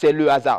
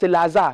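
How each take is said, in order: First: The word 'le' is fully pronounced before hasard. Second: The word 'le' is elided and linked to hasard. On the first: The speaker calls it right. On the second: The speaker calls it wrong.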